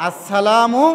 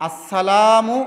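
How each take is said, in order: No difference in how they are said.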